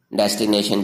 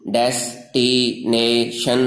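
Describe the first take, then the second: First: Said in the usual way. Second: destination slowly split into four drawn-out syllables. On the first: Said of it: "destination जिसको कहते हैं". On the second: Shown as a demonstration. Teacher shows four tongue movements in destination, slow syllable by syllable. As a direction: stretch out each syllable of destination. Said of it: "जो ज़ुबान की चार हरकतों से".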